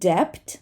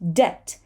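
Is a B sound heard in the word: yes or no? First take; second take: yes; no. First: A B sound is pronounced before the T. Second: No B sound is pronounced before the T. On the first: The speaker calls it wrong. "this is not debt" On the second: The speaker calls it right. "We do not say the B"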